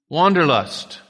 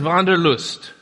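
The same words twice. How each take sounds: First: The word is said with an English pronunciation. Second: The word is said with a German pronunciation. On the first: "then I'm going to mispronounce it for the rest of the day" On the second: "I'm going to pronounce it in the German pronunciation"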